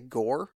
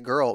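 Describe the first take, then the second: First: The word is said like 'gore'. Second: The word is said like 'girl'. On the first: This is how the children used to say it. The speaker calls it wrong. "They would say gore" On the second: This is how the children say it now. The speaker calls it right. "They've corrected that and they say girl"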